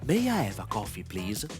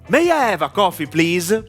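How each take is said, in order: First: It is spoken quietly, with little breath. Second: It is spoken loudly, with lots of breath. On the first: "Low volume. ... There is a little air that goes out of my mouth" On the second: "High volume. ... I used an important amount of air"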